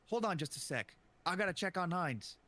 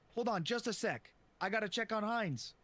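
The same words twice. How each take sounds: First: It is said flatly, in a bored way. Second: It is said urgently, as if running past.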